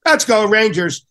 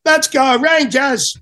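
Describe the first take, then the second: First: Put-on higher, louder Brooklyn-accented rally cry; lightly imitated Brooklyn shout; a touch of Brooklyn cheer for the team. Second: Put-on long, high Brooklyn-accented cheer, drawn out slowly; imitating a Brooklyn attendant rallying the team; Brooklyn accent shout. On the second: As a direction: belt it like a Brooklyn locker-room guy. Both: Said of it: "in his Brooklyn accent".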